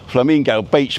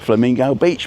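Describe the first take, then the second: First: It is said in a plain accent. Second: It is said in a Cockney accent.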